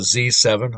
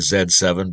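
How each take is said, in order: First: The letter Z is said the non-Canadian way. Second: The letter Z is said the Canadian way. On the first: This is the name as the speaker assumes it is meant. "I'm assuming it's uh" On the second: This is how a Canadian would say the name. "I'm Canadian. I'd say"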